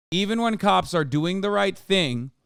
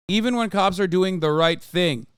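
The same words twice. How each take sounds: The two takes are said the same way.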